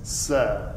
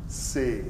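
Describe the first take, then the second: First: The vowel is an open e sound. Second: The vowel is a closed e sound. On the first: The speaker calls it right. "and it's c'est" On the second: The speaker calls it wrong. "what you're tending to say is say"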